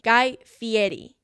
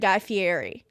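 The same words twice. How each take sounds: First: The name is said the way its owner says it. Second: The name is said the way most people say it. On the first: The speaker calls it right. "his name is pronounced Guy Fieri" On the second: The speaker calls it wrong. "nobody pronounces it correctly, so they just say Guy Fieri"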